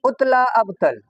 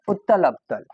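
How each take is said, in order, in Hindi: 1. दोनों शब्द बीच में एक जोड़ने वाले स्वर के साथ मिलाकर बोले गए हैं। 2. दोनों शब्द अलग-अलग बोले गए हैं, बीच में कोई जोड़ने वाला स्वर नहीं है। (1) "जोड़ जोड़ करके अब पढ़ोगे ... ऐसे नहीं पढ़ना है" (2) "ऐसे पढ़ो"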